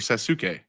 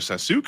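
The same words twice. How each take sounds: First: The middle vowel is a clear 'oo' sound. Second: The middle vowel is dropped or barely heard.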